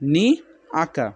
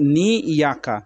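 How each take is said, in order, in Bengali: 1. 'aka'-র আগে কোনো 'y' ধ্বনি আসে না। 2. 'aka'-র আগে 'y' ধ্বনি আসে। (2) "অনেকজন পড়ে যে নি ইয়াকা, ইয়াকা নয়"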